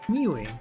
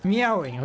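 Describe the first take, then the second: First: It is said with a short 'mew' sound. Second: It is said with a full 'meow' sound. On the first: The speaker calls it wrong. "I need to start meowing instead of mewing" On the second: The speaker calls it right. "I need to start pronouncing correctly"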